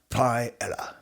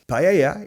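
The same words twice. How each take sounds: First: The word is said with a Yorkshire English pronunciation. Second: The word is said with a Spanish pronunciation. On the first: The speaker calls it wrong. "is not pronounced paella, because it's not from Yorkshire" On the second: The speaker calls it right. "it's from Spain"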